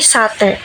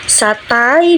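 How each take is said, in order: First: The final vowel is one plain vowel sound. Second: The final vowel glides between two vowel sounds.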